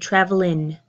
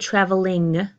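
First: The ending is reduced to a plain n sound. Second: The ending is a full, strong ng sound. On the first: The speaker calls it right. "I say travelin'" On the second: The speaker calls it wrong. "So I don't say traveling"

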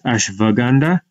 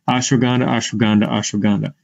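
First: The middle consonant is said as a V. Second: The middle consonant is said as a W.

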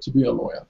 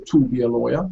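First: The word 'to' is short and joined on. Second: The word 'to' is said with a full vowel. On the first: The speaker calls it right. "you say ... you're spitting it out" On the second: The speaker calls it wrong. "you don't say"

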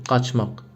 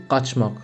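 Both takes have the same delivery.

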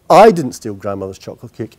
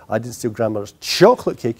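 First: The stress is on "I". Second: The stress is on "chocolate".

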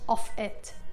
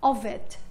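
First: The word 'of' ends with an f sound. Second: The word 'of' ends with a v sound. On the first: The speaker calls it wrong. "مش of it" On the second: The speaker calls it right. "صوت الاف تحول الى صوت في"

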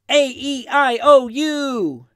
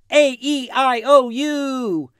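No difference in how they are said.

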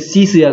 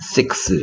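First: The word ends with a plain s sound. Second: The word ends with a ks sound. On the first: The speaker calls it wrong. "쓰 소리, 시스야, 그럼 시스?" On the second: The speaker calls it right. "크스가 됐다고"

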